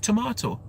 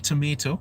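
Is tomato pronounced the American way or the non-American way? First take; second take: non-American; American. First: Tomato is said with a non-American pronunciation. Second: Tomato is said with an American pronunciation. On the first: The speaker calls it right. "I say tomato" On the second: The speaker calls it wrong. "If you're saying tomato, then you're exposed way too much to, to American content"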